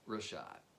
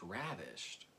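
First: The name is said as two syllables, Rashad. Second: The name is said like the word ravished. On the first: The speaker calls it right. "that's what I'm going with" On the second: The speaker calls it wrong. "I convinced myself that it was pronounced ravished. but I don't think that's right"

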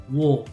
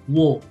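First: The vowel after the w sounds like 'oh'. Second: The same.

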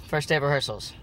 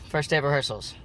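Both takes have the same delivery.

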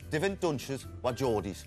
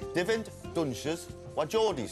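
First: It is said at normal conversational speed. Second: It is said very slowly and deliberately.

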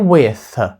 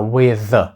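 First: The final th sound is voiceless. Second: The final th sound is voiced. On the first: The speaker calls it wrong. "Не with" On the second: The speaker calls it right. "TH в кінці цього слова дзвінкий"

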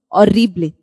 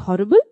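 First: The word begins with no h sound. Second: The word begins with an audible h sound. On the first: "but in Spanish, silent H" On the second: "In English, we say horrible"

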